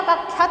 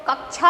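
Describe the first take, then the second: First: कक्षा said as "kakkhya"; wrong regional कक्षा. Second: Said in the usual way. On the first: Retold or imitated. Teacher rejects local form, कक्षा as "kakkhya". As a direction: kh sound replacing ksh in कक्षा. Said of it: "थोड़ी होती है". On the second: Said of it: "कक्षा थोड़ी होती है".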